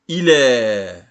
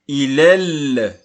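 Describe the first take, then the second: First: The final vowel is drawn out long. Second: The final vowel is cut short. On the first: The word stands alone. "en temps normal, on prolonge ce mot. On dit il est" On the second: An article follows the word. "le alif maqsoura devient une lettre muette. Donc on dit il est"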